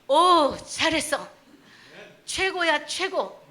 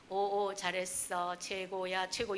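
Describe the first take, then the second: First: The praise is said warmly, with lively feeling. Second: The praise is read flatly, without feeling.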